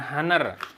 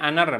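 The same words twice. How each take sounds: First: The word starts with an H sound. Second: The word starts without an H sound. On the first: The speaker calls it wrong. "bukan Honor" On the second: The speaker calls it right. "Jadi bacanya Honor, H-nya nggak dibaca kayak di hour"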